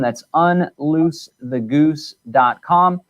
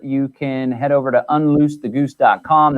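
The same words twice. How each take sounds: First: Slow, each word spelled out; slow emphatic repeat. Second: Said in the usual way. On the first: Shown as a demonstration. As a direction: drag out the web address slowly.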